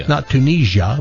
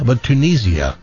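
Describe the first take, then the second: First: Tunisia said as tu-NEE-zha with a zh sound; the wrong way, Tunisia with zh in the middle; wrong pronunciation. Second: Tunisia said as tu-NEE-zee-a with a clear z; the right way, Tunisia with z then ee-a; right pronunciation. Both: Shown as a demonstration. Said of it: "We all just learned how to pronounce Tunisia".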